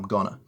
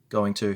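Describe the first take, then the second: First: It is reduced and run together into one word. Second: It is said as two full, separate words.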